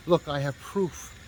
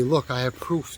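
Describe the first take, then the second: First: Slow, changed voice of a smug partner; smug partner impression. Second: Said in the usual way. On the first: Partner waves check as proof to narrator, slow smug impression. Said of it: "He goes". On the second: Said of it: "He goes, "Look, I have proof".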